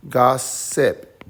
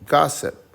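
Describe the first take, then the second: First: Loud, even syllables in gossip with a gap; split into syllables. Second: Said in the usual way. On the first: Shown as a demonstration. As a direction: gossip in two separate beats, GOSS, SIP. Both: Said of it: "So we'll say".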